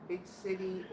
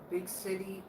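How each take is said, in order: Both takes have the same delivery.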